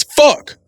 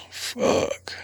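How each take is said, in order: First: Sharp startled yell; sudden loud swear; shouted curse. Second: Soft voiceless fuck; quiet whispered swear; whispered curse. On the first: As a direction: blurt it out loud and high. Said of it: "The same word just said differently". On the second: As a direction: breathe it out softly. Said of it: "it's a lot different if somebody says". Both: Shown as a demonstration.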